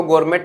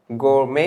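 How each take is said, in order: First: "गोरमेट" with the final t sounded; wrong pronunciation. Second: "गोरमे" ending on an open "may", no t; silent T. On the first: Teacher showing students how not to read it, mispronunciation with t. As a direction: say "गोरमेट" ending in a hard t. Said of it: "इसको गोरमेट नहीं पढ़ते हैं". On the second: Teacher showing students the correct reading, silent-t pronunciation. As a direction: say "गोरमे" with the final t left silent. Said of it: "टी silent होता है". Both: Shown as a demonstration.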